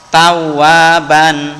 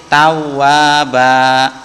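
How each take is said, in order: First: The word ends with an n sound. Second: The word ends with a long vowel. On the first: The reading continues without stopping. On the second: The reading stops at this word.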